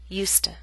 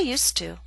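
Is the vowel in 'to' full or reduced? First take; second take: reduced; full. First: The word 'to' is reduced, without a full vowel. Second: The word 'to' keeps its full vowel sound. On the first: "we do not pronounce used to with a full vowel sound. To becomes t" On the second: "we keep the full vowel sound when ... it stands at the end of a statement"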